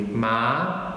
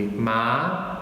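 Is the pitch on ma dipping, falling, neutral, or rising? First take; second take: rising; rising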